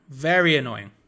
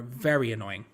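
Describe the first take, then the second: First: "Very annoying" repeated louder, VERY leaned on; emphatic annoyance. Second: Said in the usual way. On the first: Real, not acted. Commentator on being forced to pass backwards, VERY stressed in annoyance. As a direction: lean hard on "Very" to press the complaint.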